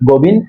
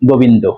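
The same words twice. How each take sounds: First: The name ends on a consonant, without rounding. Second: The name has rounded 'o' vowels and ends in 'o'. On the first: This is the name as it is written. "এখানে কি আছে গোবিন্দ" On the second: This is how Bengalis say it. "আমরা উচ্চারণ করি কি গোবিন্দ"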